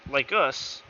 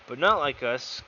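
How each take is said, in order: First: Said in the usual way. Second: "not" stressed in "But not like us". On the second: Shown as a demonstration. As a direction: lean hard on "not" in "But not like us".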